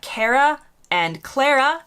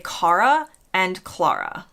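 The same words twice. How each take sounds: First: The names are said the American way. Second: The names are said the British way. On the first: "typically in the U S would be" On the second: "in the U K, typically they would say"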